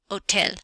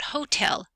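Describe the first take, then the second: First: The h at the start is silent. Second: The h at the start is pronounced. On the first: The speaker calls it right. "The letter H is silent" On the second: The speaker calls it wrong. "not hotel"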